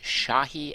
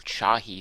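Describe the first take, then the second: First: The name begins with a soft 'sh' sound. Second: The name begins with a hard 'ch' sound. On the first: "S H" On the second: "C H"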